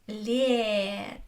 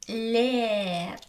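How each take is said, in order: No difference in how they are said.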